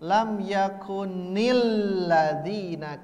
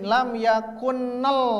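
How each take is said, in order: First: An i vowel is added after the final n. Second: The final n joins the next word without a vowel. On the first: The speaker calls it right. "Maka harokat kasroh" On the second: The speaker calls it wrong. "Kan tidak mungkin lam yakunnal"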